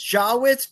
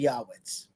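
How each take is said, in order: First: The name begins with a J sound. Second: The name begins with a Y sound. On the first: This is the usual modern pronunciation. "It's Jawitz" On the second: This is the old-world Yiddish pronunciation. "if you want to go like the old world Yiddish"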